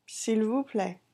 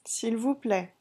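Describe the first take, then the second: No difference in how they are said.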